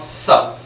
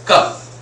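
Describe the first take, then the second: First: The word begins with an s sound. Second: The word begins with a k sound. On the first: The speaker calls it wrong. "not sup" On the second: The speaker calls it right. "C U P is cup"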